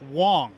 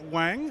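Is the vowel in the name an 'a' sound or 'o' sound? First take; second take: o sound; a sound. First: The vowel sounds like the o in 'song'. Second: The vowel sounds like the a in 'bang'. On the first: The speaker calls it right. "pronounced like an O" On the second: The speaker calls it wrong. "I'm so sorry"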